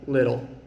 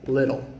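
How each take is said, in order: Both takes have the same delivery.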